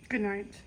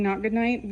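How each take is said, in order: First: Soft, drowsy sign-off; sleepy good night. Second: Said in the usual way. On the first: Pretend. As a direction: fake a sleepy goodbye. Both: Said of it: "Okay, just kidding".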